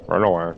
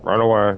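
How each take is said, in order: First: Said in the usual way. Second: Louder, higher shout to flee; raised cry to get away; urgent call. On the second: Acted. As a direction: yell the warning out. Sudden urgent warning to flee.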